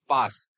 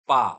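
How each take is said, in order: First: The word ends with a pronounced 's' sound. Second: The word ends on the vowel, no 's'. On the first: The speaker calls it wrong. "लेकिन नो, यहाँ पे एस silent है" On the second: The speaker calls it right. "सिर्फ आप पा ही बोल सकते हो"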